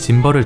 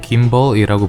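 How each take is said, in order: First: The word begins with a J sound. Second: The word begins with a hard G sound. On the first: This is how it is said in Korea. The speaker calls it wrong. "여기서는 짐벌을 짐벌이라 부르지 않고" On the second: This is how it is said abroad. The speaker calls it right. "김벌이라고 부르더라고요"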